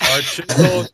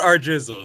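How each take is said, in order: First: The second word begins with a 'ch' sound. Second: The second word begins with a 'j' sound. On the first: The speaker calls it right. "It's our chisel. Guys, get it right" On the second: The speaker calls it wrong. "it's not our jizzle"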